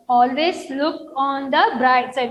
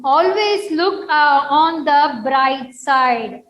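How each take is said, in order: First: Said in the usual way. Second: ALWAYS lifted and louder, then slow and firm; "Always" pitched up, the rest slower and louder; emphatic reading. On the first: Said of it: "teacher repeats the phrase". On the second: Shown as a demonstration. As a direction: read it out as a slow, stressed model line. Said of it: "teacher models the phrase".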